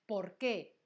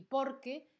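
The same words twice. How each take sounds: First: "por qué" with the weight on qué; two words, land on the qué of "por qué"; stress on QUÉ. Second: "por qué" run together as one word, por higher; stress on POR. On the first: Teacher contrasting two options, "por qué" stressed on qué. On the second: Teacher contrasting two options, "por qué" stressed on por. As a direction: hit the por in "por qué", qué unstressed. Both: Shown as a demonstration. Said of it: "fíjate que no lo pronuncio igual".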